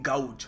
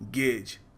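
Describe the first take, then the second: First: The vowel sounds like 'ow'. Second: The vowel sounds like 'ay'. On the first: The speaker calls it wrong. "काफ़ी सारे लोग गाउज बोलते भी हैं, which is wrong" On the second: The speaker calls it right. "आपको कहना चाहिए गेज"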